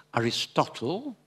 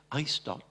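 First: Aristotle said the English way, ending "-totl"; English-sounding Aristotle; English pronunciation. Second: Aristote said the French way, ending on a crisp t; French-sounding Aristote; French pronunciation. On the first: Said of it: "les Anglais disent". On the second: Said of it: "les Français disent". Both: Shown as a demonstration.

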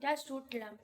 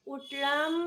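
First: Just stressed with a falling close. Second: Drowsy rising drawl; sleepy drawl. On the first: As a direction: press on just, let উঠলাম fall. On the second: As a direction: stretch it out like just waking. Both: Real, not acted.

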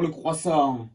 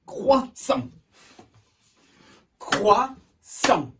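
First: Said in the usual way. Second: High "Croissant" split into two beats; syllable by syllable. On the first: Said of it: "deux syllabes". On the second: Shown as a demonstration. Teacher asks pupils to count, syllable by syllable. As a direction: clap out Crois, sant for "Croissant". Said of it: "Combien de fois?".

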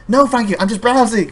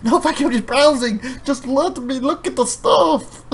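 First: Louder, higher, fed-up "no thank you"; irritated refusal. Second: High, slow, pleading "just let me look"; exasperated refusal. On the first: Customer brushing off a clerk again, louder and irritated. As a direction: brush off the clerk a second time. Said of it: "Five minutes later". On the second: Fabi begging a pushy clerk to leave him alone, exasperated. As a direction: beg to be left alone. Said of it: "Fabi's like". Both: Retold or imitated.

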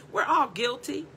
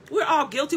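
First: Whispered confession to the room. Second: Said in the usual way. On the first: Real, not acted. Preacher confessing to the congregation in a whisper. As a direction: breathe it out as a whisper. Whispered, then repeated aloud.

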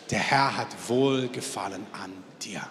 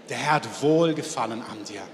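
First: A whispered blessing passed to the person beside you. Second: Said in the usual way. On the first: Shown as a demonstration. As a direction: whisper it tenderly to your neighbour. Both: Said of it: "sagt deiner Nebenperson".

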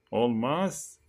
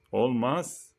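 No difference in how they are said.

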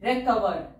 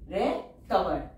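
First: Said in the usual way. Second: recover drawn out very slowly; slow teacher dictation. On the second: Shown as a demonstration. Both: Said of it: "teacher says word then dictates".

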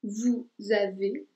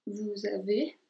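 First: Vous avez, slowly, with the z of vous linked into avez; slow liaison demo. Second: Said in the usual way. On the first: Shown as a demonstration. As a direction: link "vous avez" as vuz-ave, carefully. ("vous avez" lento, uniendo la z con avez) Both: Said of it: "Ahí hay la liaison porque empieza con A".

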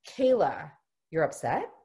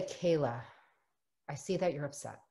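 First: Kayla, then "upset" rising as a question; questioning reflection. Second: Soft, falling close on "upset"; statement of understanding. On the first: Parent wrongly asking the child, questioning. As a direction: turn "you're upset" into a question. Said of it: "it should be said in a statement". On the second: Parent reflecting Kayla's feeling, understanding statement. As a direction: say "you're upset" as a quiet statement. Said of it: "Should be in a statement of understanding". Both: Shown as a demonstration.

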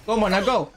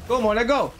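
Both takes have the same delivery.

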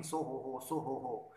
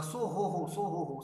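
First: Said in the usual way. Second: Louder, calling into the ear; hollering in a sleeping man's ear; mock shout. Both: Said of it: "going near his ears and shouting".

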